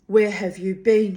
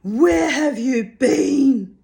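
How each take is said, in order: First: Loud, accusing demand; crying out. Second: High, loud, slow scolding. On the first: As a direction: call it out at him. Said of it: "she cried". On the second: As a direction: scold her like a stray cow. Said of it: "scolding her as though she were a strayed milk cow". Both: A narrator's reading.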